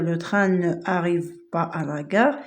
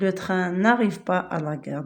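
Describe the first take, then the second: First: Ne is a full separate syllable before arrive. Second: Ne is shortened to n, joined to arrive. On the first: The speaker calls it wrong. "on ne peut pas dire" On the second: The speaker calls it right. "au lieu de mettre ne, on va mettre n apostrophe"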